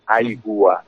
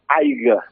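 First: The word ends in a ua diphthong. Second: The word ends in an a sound. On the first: This is the full form with the final diphthong. "la reducció del diftong final, ua" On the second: This is the Barcelona dialect form. "en el català de Barcelona diuen aiga"

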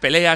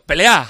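First: It is said in a standard Spanish accent. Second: It is said in an Argentine accent. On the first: "no le sale pelea" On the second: "habla en argentino"

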